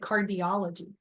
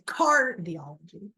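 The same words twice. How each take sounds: First: The stress is on the third syllable. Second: The stress is on the first syllable. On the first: The speaker calls it right. "you say cardiology. I don't know why, but that's the proper way to do it" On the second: The speaker calls it wrong. "you don't say cardiology"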